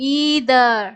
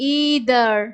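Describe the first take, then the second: First: The first vowel is a long 'ee'. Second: The same.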